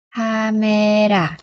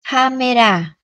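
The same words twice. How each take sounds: First: CAMERA stretched very slowly, syllable by syllable; drawn out. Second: Said in the usual way. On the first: Shown as a demonstration. Teacher modelling a Korean word for learners, drawn out. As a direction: say "Camera" very slowly, holding the vowels.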